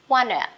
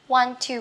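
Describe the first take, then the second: First: The two words are linked into one reduced form. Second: The two words are said separately in full.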